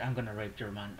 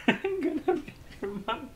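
First: Said in the usual way. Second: Much higher put-on voice, laughing through it; high mock villain voice breaking into laughter; hammed-up roleplay voice. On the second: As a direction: ham up the roleplay line, giggling. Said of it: "Roleplay. I like roleplay".

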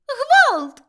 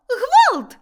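First: Shrill, high cry for help; top-of-the-lungs alarm; frantic scream. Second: A second high, loud cry for help; louder repeated alarm; frantic scream. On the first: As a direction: scream it out in panic. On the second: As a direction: keep screaming in panic. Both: A narrator's reading. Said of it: "закричала Милашка".

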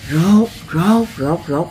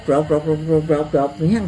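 First: Shuffling sandal sound. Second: Scraping sound imitation. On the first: Retold or imitated. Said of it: "đi kéo dép vậy". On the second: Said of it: "Kéo nghe".

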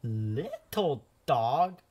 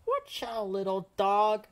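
First: Slow, drawn-out wondering call; painter, slowed in surprise. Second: Loud warning shout; painter's yell. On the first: Painter staring at the painted dog, slow wonder. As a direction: stretch it out, staring at the red dog. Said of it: "the painter said". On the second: Painter shouting a warning at the little dog, loud. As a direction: call out to stop the little dog. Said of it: "The painter yelled". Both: Acted.

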